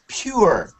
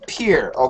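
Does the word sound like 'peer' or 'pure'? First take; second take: pure; peer. First: The vowel sounds like 'you', as in 'pure'. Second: The vowel sounds like 'ee', as in 'peer'. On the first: The speaker calls it right. "But you should say pure" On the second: The speaker calls it wrong. "When you said it, it sounded like peer"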